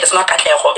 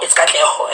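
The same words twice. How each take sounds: First: Katleho as the wrong version being rejected; mispronounced Katleho. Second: Katleho as the proper version; corrected Katleho. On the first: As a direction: say Katleho the way she is correcting. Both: Retold or imitated.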